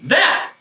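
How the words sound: The word is said in a happy way. "You should say it happy"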